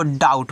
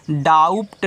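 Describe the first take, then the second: First: डाउट gliding straight into t, no b; silent B. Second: डाउट with a p/b wrongly voiced before the t; wrong sounded B. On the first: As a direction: leave the b out of डाउट. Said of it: "इसको आपको डाउट पढ़ना है". (डाउट में ब silent) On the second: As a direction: put an audible b into डाउट. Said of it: "इसको आप डाउट नहीं पढ़ोगे". (डाउट में ट से पहले ब बोलते हुए) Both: Shown as a demonstration.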